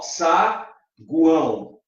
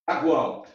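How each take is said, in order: First: "saguão" lento, com pausa entre sílabas; separação silábica. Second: Said in the usual way. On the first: Shown as a demonstration. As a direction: split "saguão" slowly into sa, guão. ("saguão" devagar, separado em sa-guão) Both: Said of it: "Se você fala assim".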